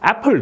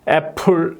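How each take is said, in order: First: The p closes the first syllable, which is stressed. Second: The p starts the second syllable, stress is unclear. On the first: This is the modern native way of saying it. "애플 저절로 되는 거예요" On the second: This is the older way of saying it. "전에는 애플 이렇게 하면은 액센트가 애매모호했죠"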